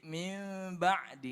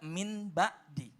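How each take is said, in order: First: The n sound turns into a soft m. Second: A clear n sound comes before ba'di. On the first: The speaker calls it right. "dibacanya adalah samar-samar ke mim" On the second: The speaker calls it wrong. "enggak min ba'di"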